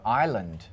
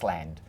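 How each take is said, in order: First: The word has no S sound. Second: The word has an S sound, like Iceland. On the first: The speaker calls it right. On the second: The speaker calls it wrong.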